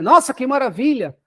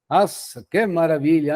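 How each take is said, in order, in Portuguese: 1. Soa sinceramente encantado. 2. Soa irônico e debochado.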